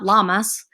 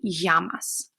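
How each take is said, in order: First: The double L is said as an L sound. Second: The double L is said as a Y sound. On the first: The speaker calls it wrong. "it's not llamas, like we would say that. We're not talking about the animal" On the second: The speaker calls it right. "but it would be llamas"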